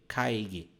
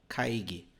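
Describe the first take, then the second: The two takes are said the same way.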